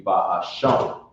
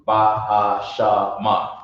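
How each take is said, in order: First: "Bahasham" ending on m with no final vowel; correct pronunciation. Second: Slow, "Bahashama" with an extra a at the end; wrong final vowel. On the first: Teacher giving the right ending. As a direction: close "Bahasham" on the m. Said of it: "You're dropping the a at the end". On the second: Teacher showing the wrong ending. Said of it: "You're not saying". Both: Shown as a demonstration.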